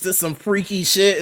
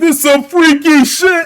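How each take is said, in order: First: It is said at a normal, calm volume. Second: It is yelled loudly with high energy.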